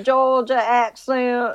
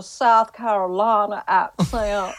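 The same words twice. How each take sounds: First: Slow, put-on Georgia drawl; Georgia accent. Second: Slow, hammed-up South Carolina drawl; South Carolina accent. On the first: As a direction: stretch it out like a Georgia local. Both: Shown as a demonstration. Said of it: "regions have the different".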